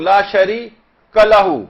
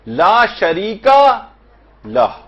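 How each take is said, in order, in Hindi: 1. यह वाक्यांश अक्षर 'shari' के बाद तोड़ा जाता है। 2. यह वाक्यांश पूरे शब्द 'sharika' के बाद तोड़ा जाता है। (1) "कलहू एक साथ और ला शरी अलग" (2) "ला शरीका पूरा एक अलग"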